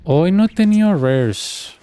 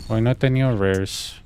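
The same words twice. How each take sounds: First: Sing-song slow complaint; drawn-out high. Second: Said in the usual way. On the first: Pretend. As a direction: stretch it out up high as if announcing. Says the same line twice.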